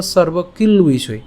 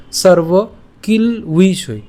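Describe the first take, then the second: First: "সর্ব কিল উইষয়" linked as one phrase; joined pronunciation. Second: "সর্ব কিল উইষয়" very slowly, in separate pieces; split pronunciation. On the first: Teacher says we pronounce it together, joined "সর্ব কিল উইষয়". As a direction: carry kil into uishoy in "সর্ব কিল উইষয়". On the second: Teacher reads the broken-up slide, split "সর্ব কিল উইষয়". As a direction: break "সর্ব কিল উইষয়" after kil, then uishoy. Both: Shown as a demonstration. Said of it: "এটাও আমরা একসাথে উচ্চারণ করবো".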